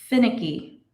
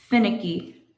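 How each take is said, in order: No difference in how they are said.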